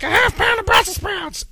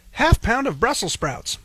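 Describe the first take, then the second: First: Much higher, nasal-free mock kid voice at a jeering pitch; mocking imitation. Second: Put-on a light childlike pitch, a bit higher; imitating his son. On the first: Dad imitating the clerk mocking his son, high jeering voice. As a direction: parody the boy cruelly, way up high. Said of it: "mocks my child". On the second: Dad echoing his son ordering Brussels sprouts, lightly childlike. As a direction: copy the boy's voice gently. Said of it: "And my son, at that moment, goes".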